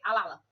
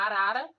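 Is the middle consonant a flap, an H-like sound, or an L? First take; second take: L; flap. First: The middle consonants are L sounds. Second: The middle consonants are tapped R sounds. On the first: "esse R e trocando pelo L" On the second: "se tem a palavra arara"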